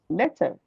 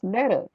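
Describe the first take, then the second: First: The middle consonant is a clear T sound. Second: The middle consonant is a soft D-like sound. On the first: "I would still pronounce my T's in the middle of words" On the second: "I won't pronounce letter because you taught me that the T sound is ts, not D"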